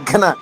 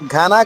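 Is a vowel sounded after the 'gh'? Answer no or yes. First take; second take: no; yes. First: The 'gh' runs straight into 'n' without a vowel. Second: A full vowel follows the 'gh' sound. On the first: The speaker calls it right. "ఒత్తుగానే పొల్లుగా చెప్పాలి" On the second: The speaker calls it wrong. "ఘన కాదు"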